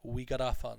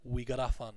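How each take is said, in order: First: The words run together; the T sounds like D. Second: The same.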